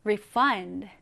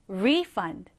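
First: "refund" as a verb, re-FUND; short light RE, strong FUND in "refund"; stress on second syllable. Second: "refund" as a noun, RE-fund; strong long RE, lighter FUND in "refund"; stress on first syllable. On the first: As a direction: say "refund" leaning on the last syllable. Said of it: "환불하다라는 의미일 때는". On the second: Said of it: "환불일 때는". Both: Shown as a demonstration.

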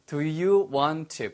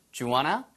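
First: Very slow, each word separate; careful teacher's model, 'want to' unmerged; slow, full form. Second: Quick 'Do you wanna', rising end; brisk, run-together question; fast linked form. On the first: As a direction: stretch out 'Do you want to' word by word. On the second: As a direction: squeeze 'Do you' into one short 'dyu' before 'wanna'. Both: Shown as a demonstration. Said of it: "빨리 하면".

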